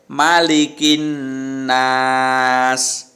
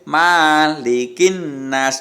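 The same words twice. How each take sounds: First: The first vowel "ma" is kept short. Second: The first vowel "ma" is drawn out long. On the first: The speaker calls it right. "ma-nya pendek" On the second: The speaker calls it wrong. "tidak boleh malikin nas, tidak boleh seperti itu"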